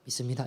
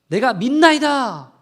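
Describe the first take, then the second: First: It is said calmly, without shouting. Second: It is shouted earnestly and loudly.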